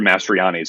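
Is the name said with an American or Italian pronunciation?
American. The name is said with an American pronunciation. Italians would not recognize the name said this way. "if you went back to Italy looking for Mastrianis"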